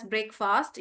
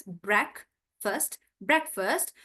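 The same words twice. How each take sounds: First: Breakfast with a full second vowel, BREK-fast; wrong pronunciation. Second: Breakfast as BREK-fuhst, the second vowel reduced; right pronunciation. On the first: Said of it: "You don't pronounce it as". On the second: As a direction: slowly model breakfast with a short weak second syllable. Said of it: "You pronounce it as". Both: Shown as a demonstration.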